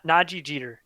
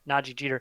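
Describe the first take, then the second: First: The name has an extra 'ah' sound added. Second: The name has no extra 'ah' sound added. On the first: The speaker calls it wrong. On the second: The speaker calls it right.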